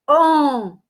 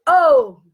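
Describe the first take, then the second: First: The vowel is said through the nose. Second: The vowel is said with a closed sound. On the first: "som totalmente fechado, nasal" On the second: "som mais fechado"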